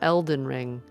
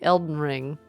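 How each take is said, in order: First: The d sound in Elden is clearly pronounced. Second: The d sound in Elden is dropped. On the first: The speaker calls it right. "not Elden Ring" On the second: The speaker calls it wrong. "I say it wrong because I say Elden Ring"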